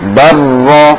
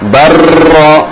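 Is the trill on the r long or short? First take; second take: short; long. First: The r is trilled with very few vibrations. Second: The r is trilled for many vibrations. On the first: The speaker calls it right. "Biar getarannya tidak berlebihan, caranya ketika ditasydid ditekan" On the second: The speaker calls it wrong. "nah, berlebihan"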